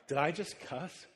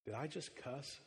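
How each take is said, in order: First: Said in the usual way. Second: Soft, unsure little question; hushed worried question. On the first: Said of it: "This is five-year-old [name]". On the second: Retold or imitated. Five-year-old daughter to dad, hushed and worried. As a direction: wonder aloud, half afraid. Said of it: "She said".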